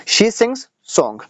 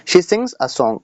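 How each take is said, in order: First: Very slow, word by word, as if dictating; slow dictation. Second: Said in the usual way. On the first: Shown as a demonstration. Teacher dictating to students, very slowly.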